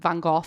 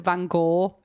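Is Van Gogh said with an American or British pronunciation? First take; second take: British; American. First: The name is said the British way. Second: The name is said the American way. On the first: "In the U K, we pronounce it" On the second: "Americans pronounce it"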